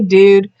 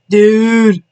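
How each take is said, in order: First: It is said plainly, with no effects. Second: It is said with exaggerated teenage sound effects.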